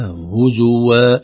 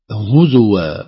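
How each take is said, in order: First: هزوا as hu-zu-wa with a damma on the ز; correct reading. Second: هزوا with a silent zay, huz-wa; wrong sukun. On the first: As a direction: give the ز of هزوا a vowel. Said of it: "القراءة الصحيحة هزوا". (هزوا بضم الزاي) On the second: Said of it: "لا نقول هزوا". (هزوا بسكون الزاي خطأ) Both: Shown as a demonstration.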